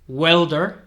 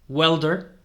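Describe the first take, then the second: No difference in how they are said.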